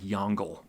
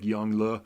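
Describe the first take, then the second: First: The name is read as its English spelling suggests. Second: The name is said closer to its Chinese pronunciation. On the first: The speaker calls it wrong. "it looks like Yongle" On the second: The speaker calls it right. "the pronunciation is more like Yongle"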